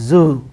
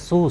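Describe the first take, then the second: First: The word starts with a voiced z sound. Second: The word starts with a voiceless s sound. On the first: The speaker calls it right. "but it is zoo" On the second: The speaker calls it wrong. "we pronounce as su, su like that"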